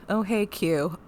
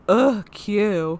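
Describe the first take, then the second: First: It sounds only lightly annoyed. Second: It sounds strongly annoyed.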